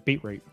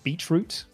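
First: The word has a plain, ordinary pronunciation. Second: The word has a posh, upper-class pronunciation. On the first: "It's beetroot" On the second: "I don't say beetroot, like some posh people say"

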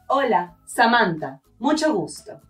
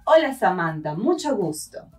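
First: There are pauses around the name. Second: It is said in one breath.

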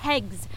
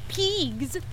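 First: The name is said with a short vowel. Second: The name is said with a long vowel. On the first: The speaker calls it right. "it's pegs" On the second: The speaker calls it wrong. "not peegs. Say it right"

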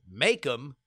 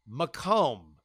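First: The name sounds like the word Macon. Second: The name does not sound like Macon. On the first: The speaker calls it wrong. "what I had pronounced as Macomb, I guess it was like Macon, Georgia for me" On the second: The speaker calls it right. "is indeed pronounced Macomb"

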